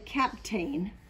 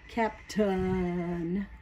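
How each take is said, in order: First: The second syllable has a full vowel. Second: The second syllable has a reduced schwa vowel. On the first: The speaker calls it wrong. "I kind of wanted to say captain" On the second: The speaker calls it right. "captain is actually the way we say it"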